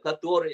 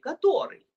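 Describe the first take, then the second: First: It is said with a flat statement tune. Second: It is said with a questioning tune. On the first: It simply refers to which one, without asking. The speaker calls it right. "Обычно это просто слово повествовательное" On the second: It asks which one. The speaker calls it wrong. "Это не вопросительное"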